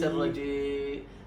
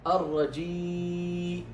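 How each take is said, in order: First: The long i vowel after j is reduced. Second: The long i vowel after j is clear. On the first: The speaker calls it wrong. "ليس الرجيم" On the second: The speaker calls it right. "أن تعطي الكسر حقه"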